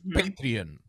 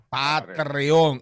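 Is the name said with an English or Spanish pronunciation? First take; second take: English; Spanish. First: The name is said with English sounds. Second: The name is said with Spanish sounds.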